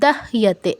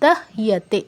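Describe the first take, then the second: No difference in how they are said.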